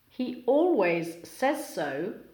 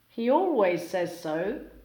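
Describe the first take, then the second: First: Each word keeps its own separate sounds. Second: Sounds between words blend and change together.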